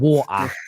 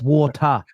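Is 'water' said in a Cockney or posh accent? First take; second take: Cockney; posh. First: It is said in a Cockney accent. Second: It is said in a posh London accent. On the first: This is how the father says it. The speaker calls it wrong. "not water" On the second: This is the correction. The speaker calls it right. "It's water"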